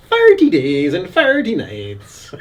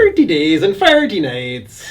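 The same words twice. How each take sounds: First: Slow Irish Thirty for forty; drawn-out Irish cinema announcement; Irish accent. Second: Thirty for forty in an Irish brogue; Irish accent. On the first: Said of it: "just full-on Irish a-, accent". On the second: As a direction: say it the Irish way, lightly. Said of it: "Do the forty days and forty nights". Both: Retold or imitated.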